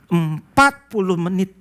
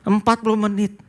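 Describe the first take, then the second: First: Empat puluh menit drawn out slowly, each word weighted; slow stress. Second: Empat puluh menit repeated higher, stress on empat. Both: Shown as a demonstration.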